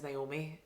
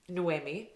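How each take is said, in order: First: The name begins like the English name Naomi. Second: The name begins with a no sound, then eh. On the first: The speaker calls it wrong. "I kept reading her name as Naomi" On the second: The speaker calls it right. "no, Sarah, it's Noemi"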